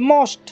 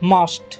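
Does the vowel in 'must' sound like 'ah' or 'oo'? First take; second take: oo; ah. First: The vowel is a rounded 'oo' sound. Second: The vowel is an open 'ah' sound. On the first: The speaker calls it wrong. "ତା ଭୁଲ ଉଚ୍ଚାରଣ ସେ କରନ୍ତି।" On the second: The speaker calls it right. "ଆ ଉଚ୍ଚାରଣ ହେଉଛି ଦେଖ ପିଲାମାନେ।"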